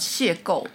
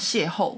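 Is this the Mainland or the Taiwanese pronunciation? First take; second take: Taiwanese; Mainland. First: It is pronounced the Taiwanese way. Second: It is pronounced the Mainland Chinese way. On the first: "我记得台湾是讲邂逅" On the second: "然后中国是讲邂逅"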